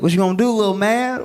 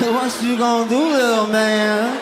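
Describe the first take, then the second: First: It is said plainly, without imitation. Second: It imitates the drunk guy's slurred manner.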